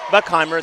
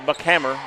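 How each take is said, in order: First: The name ends with a 'heimer' sound. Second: The name ends with a 'hammer' sound. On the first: The speaker calls it wrong. "not Heimer" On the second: The speaker calls it right. "Buckhammer, not Heimer"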